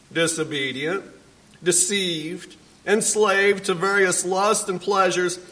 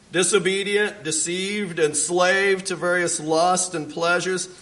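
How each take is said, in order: Both takes have the same delivery.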